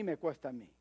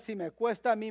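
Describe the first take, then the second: First: Quiet emphatic echo; preacher echoing his point softly to himself; low, quiet echo. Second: Said in the usual way. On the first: Shown as a demonstration. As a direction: repeat it lower and much softer, as if to oneself.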